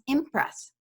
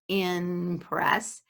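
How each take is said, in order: First: The sound before the p is m. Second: The sound before the p is n. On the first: "it becomes impress" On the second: "what we do when we try to say in press"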